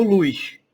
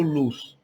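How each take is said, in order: First: "luz" stretched as "luiz" with a hushing final sh; Northeastern "luz". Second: Said in the usual way. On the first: Shown as a demonstration. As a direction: say "luz" like a nordestino, luiʃ. ("luz" com sotaque nordestino, esticado como "luiʃ") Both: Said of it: "A gente não fala luz".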